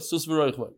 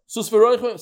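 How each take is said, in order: First: The people's echo, softer. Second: The leader's call, a touch higher. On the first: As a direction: answer it back quietly. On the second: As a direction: start the line for them. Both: Shown as a demonstration. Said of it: "They say".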